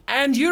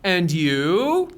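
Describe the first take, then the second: First: "and you" said without any lift at the end; "and you" with no questioning rise; robotic, no rise. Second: "And you" climbing up at the end; rising question tune on "And you"; rising intonation. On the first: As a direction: say "and you" like a robot, not asking. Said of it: "ربات نیستی". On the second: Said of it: "میره بالا". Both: Shown as a demonstration.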